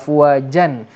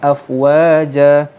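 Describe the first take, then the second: First: The word ends with an n sound. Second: The word ends with a long vowel. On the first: "Kes berhenti bacaan pada baris dua di atas" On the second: "kita kena berhenti dengan afwaja"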